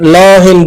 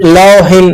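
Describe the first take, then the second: The two takes are said the same way.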